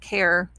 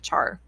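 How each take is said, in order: First: The word begins with a k sound. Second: The word begins with a ch sound. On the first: "some people pronounce it as a care, short for character" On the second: "I'll just call it a char"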